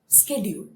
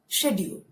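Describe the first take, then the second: First: American pronunciation, without an American accent. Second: British pronunciation, without a British accent. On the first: "American pronunciation but not the accent" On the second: "I'm using the British pronunciation but not the accent"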